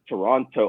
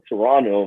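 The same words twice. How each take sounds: First: The second T is clearly pronounced. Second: The second T is dropped. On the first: This is how people in the US say it. "in the U S they pronounce" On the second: This is how Canadians say it. "in Canada we don't pronounce like the second T's"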